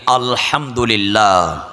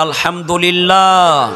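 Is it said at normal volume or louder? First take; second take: normal; louder. First: It is said at a normal volume. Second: It is said more loudly.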